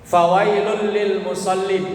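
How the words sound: It comes to a full stop after musallin. Those who pray are the ones in trouble. The speaker calls it wrong. "umpama berhenti di situ"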